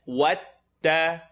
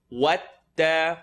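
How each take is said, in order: No difference in how they are said.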